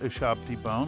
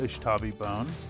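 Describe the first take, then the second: First: The t sound comes right after the b. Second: The t sound comes right after the sh. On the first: This is the established term. "It's not Ushabti bone, which is an established established term" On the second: This is the name used on this channel. "I will continue to call it Ushtabi bone"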